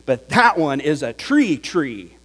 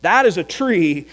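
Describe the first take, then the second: First: "tree tree" leaned on, doubled word falling; contrasting demo, weight on "tree tree"; stress on tree tree. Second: Said in the usual way. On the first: Shown as a demonstration. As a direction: press the second "tree" to show it is bigger. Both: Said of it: "by simply repeating the word".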